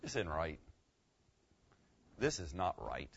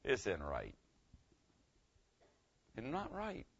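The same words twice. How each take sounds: First: Low, soft dawning regret; hushed "This is not right"; quiet realization. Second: Hushed "It's not right"; quiet realization. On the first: Shown as a demonstration. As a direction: let the truth sink in quietly. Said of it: "I would say something like this". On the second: Retold or imitated. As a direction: say it as the guilt sinks in. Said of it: "the thought hits you".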